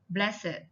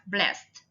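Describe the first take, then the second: First: The ending is an extra id syllable. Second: The ending is a plain t sound. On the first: It is used as an adjective. "the ed adjective takes it" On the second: It is used as a verb. "verbs simply follow the rules before"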